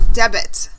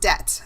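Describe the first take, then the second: First: The B is sounded in the word. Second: The B is silent in the word. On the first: The speaker calls it wrong. "It's not pronounced debit" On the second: The speaker calls it right. "It's pronounced debt. the B is silent"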